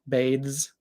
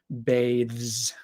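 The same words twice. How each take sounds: First: Said casually, the final sound is closer to s. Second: Said slowly and clearly, ending in a full z. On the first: "when I'm not speaking so clearly, the z sound is a little bit more like an s" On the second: "if we're speaking very slowly, very clearly"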